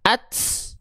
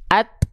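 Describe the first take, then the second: First: The final t is followed by an s hiss. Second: The final t is crisp with no s hiss. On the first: The speaker calls it wrong. "Jangan ada es-esnya" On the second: The speaker calls it right. "Jadi cukup dipercikan aja"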